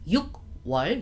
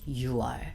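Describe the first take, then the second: First: The first syllable ends in a hard k sound. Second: The first syllable ends softly with no k. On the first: The speaker calls it wrong. "Instead of 육월" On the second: The speaker calls it right. "we say 유월"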